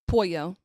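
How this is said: The double L sounds like 'y'.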